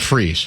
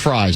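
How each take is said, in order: First: The vowel rhymes with 'sees'. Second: The vowel rhymes with 'cries'. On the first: The speaker calls it wrong. "not Freeze" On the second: The speaker calls it right. "it is pronounced Fries"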